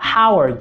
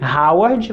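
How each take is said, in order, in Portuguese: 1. Começa com um som áspero, sem vibração. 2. Começa com um som sonoro, com vibração. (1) "você deve falar" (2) "Ao invés de"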